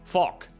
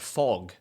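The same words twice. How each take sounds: First: The final G sound is hard. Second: The final G sound is soft. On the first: The speaker calls it wrong. "I used to say things like fog, fog, or dig. ... it's a little bit softer than that" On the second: The speaker calls it right. "It's the same for things like fog"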